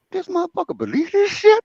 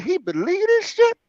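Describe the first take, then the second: First: High, disbelieving inner voice; can't believe he bought it; squeaky disbelief, a laugh behind it; incredulous. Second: High, disbelieving inner voice; squeaky amazed disbelief; incredulous. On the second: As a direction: still can't believe it. Repeats disbelief. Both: Retold or imitated.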